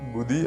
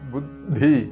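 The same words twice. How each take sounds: First: The d-plus-aspirated-dh cluster is not produced. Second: A plain d is followed by an aspirated dh. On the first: The speaker calls it wrong. "ബുദ്ധി അല്ല" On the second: The speaker calls it right. "ശ്രദ്ധിക്കേണ്ടത് ബുദ്ധി"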